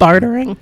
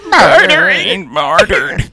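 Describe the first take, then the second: First: Faint, fading voice; voice going away. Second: High, slow old man imitation; very old faint voice. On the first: Real, not acted. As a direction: voice giving out on the word. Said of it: "my voice went away". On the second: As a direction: croak it like a creaky old man. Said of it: "you sounded like that old man".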